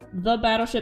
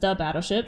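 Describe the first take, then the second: First: It is said in a plain English accent. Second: It is said in a German accent.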